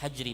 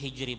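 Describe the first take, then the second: First: The first vowel sounds like 'a'. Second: The first vowel sounds like 'i'. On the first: "yang lebih fasih adalah ucapannya adalah dengan kalimat hajri" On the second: "Fi hijri boleh"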